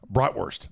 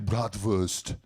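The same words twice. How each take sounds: First: It is said with a plain American pronunciation. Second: It is said with a German-sounding pronunciation. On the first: This is the speaker's everyday way of saying it. "That's how I say it" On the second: The speaker is trying to sound German. "just to try to sound German. ... although I just did it"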